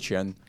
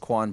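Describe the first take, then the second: First: The name is said the Chinese way. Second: The name is said the common everyday way. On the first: This is how the name is said in Chinese. "but in Chinese, we actually pronounce it as Qian" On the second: This is how most people say the name. "Everyone says Quan"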